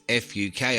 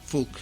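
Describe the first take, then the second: First: It is spelled out letter by letter. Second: It is said as one softened word. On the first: "I'm trying to avoid saying Fuk" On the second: "I'm just giving that a soft pronunciation"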